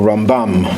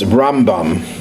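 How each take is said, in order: First: The stress is on the second syllable. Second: The stress is on the first syllable.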